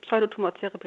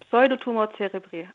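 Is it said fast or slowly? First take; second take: fast; slowly. First: It is said fast. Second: It is said slowly.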